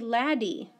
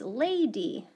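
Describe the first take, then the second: First: The first vowel is short, as in bad. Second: The first vowel is long, as in day. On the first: The speaker calls it wrong. "if we broke up lady like lad and then E, it would say laddie" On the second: The speaker calls it right. "Oh, it's lady"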